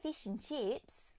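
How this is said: The vowels are clear e-like sounds, Australian accent. "Australia will be like fish and chips"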